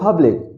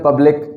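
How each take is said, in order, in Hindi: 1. सिर्फ एक सिलेबल पर स्ट्रेस आता है। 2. दोनों सिलेबल पर बराबर स्ट्रेस आता है। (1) "इंग्लिश में बोलेंगे" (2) "इंग्लिश उर्दू में बोलेंगे"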